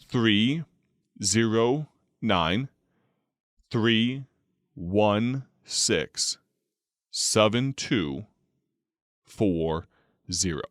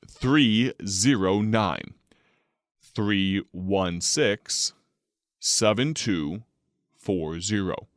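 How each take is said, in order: First: It is read even more slowly. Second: It is read at a moderate, careful pace.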